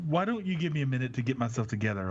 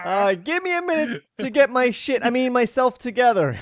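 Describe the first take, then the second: First: Flat, uninterested line read; a bit quick and flat; disinterested. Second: Much higher, louder mocking imitation; hammed-up high voice impression; mocking falsetto. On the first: Acted. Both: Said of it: "Why do you sound like a, a disinterested hooker?".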